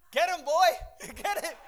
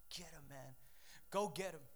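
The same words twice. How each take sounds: First: High, loud yell setting the dog on someone; shouted dog command. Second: Low, hushed order to attack; sly quiet command. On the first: Owner to dog as the intruder flees, shouted command. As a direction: imitate an owner sending the dog after a runner. People setting dogs on him. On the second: Devil to his dogs after a trespasser, quiet command. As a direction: imitate the devil quietly setting dogs on someone. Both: Retold or imitated.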